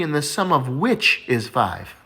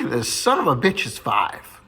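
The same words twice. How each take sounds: First: "the sum of which is five" said slowly and properly; a teacher's correct "sum of which", drawn out. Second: Put-on "the son of a bitch is five" drawn out slowly as a kid's mishearing. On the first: Retold or imitated. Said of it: "The math teacher just laughs, and he says". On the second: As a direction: stress "son", say "son of a bitch" plainly as a curse.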